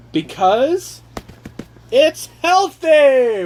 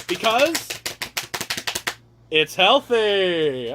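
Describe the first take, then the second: First: Much higher and louder, very slow on healthy; drawn-out hyped reveal; grand announcement. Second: Softer reveal. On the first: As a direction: announce it like a game show reveal. Announcing reason with fanfare. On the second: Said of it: "I'm gonna need a drum roll". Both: Pretend.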